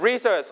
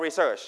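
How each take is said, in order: First: Research with the first syllable RE stressed. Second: Research with the second syllable SEARCH stressed. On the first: Teacher repeats the choice for class, Research stressed on RE. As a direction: lean on the opening RE of Research. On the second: Teacher repeats the choice for class, research stressed on SEARCH. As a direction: lean on the final SEARCH of research. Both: Shown as a demonstration. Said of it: "stress on the first or second syllable".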